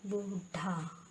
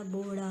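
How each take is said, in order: First: बूढ़ा slow, with a hard stop; wrong pronunciation. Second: बूढ़ा with flapped ṛh, boorha; correct pronunciation. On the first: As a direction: draw out बूढ़ा and harden the dh. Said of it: "नहीं होता". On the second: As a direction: flick the middle of बूढ़ा. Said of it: "होता है". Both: Shown as a demonstration.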